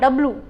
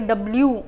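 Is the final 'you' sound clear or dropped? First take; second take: dropped; clear. First: The final 'you' sound is cut short. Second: It ends with a full 'you' sound. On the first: The speaker calls it right. "जो एंड में U बोलेंगे उसको कर देना हमने eliminate" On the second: The speaker calls it wrong. "इसको हमने ऐसे नहीं बोलना कि W"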